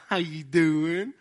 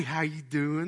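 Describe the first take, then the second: First: Slow, drawn-out friendly hello; smiling fake-sweet greeting. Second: Said in the usual way. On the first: Secretly mad Southerner passing you by, falsely friendly. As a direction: stretch it out through a smile, hiding the grudge. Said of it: "They'll just smile at you". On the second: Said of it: "people might be mad at you".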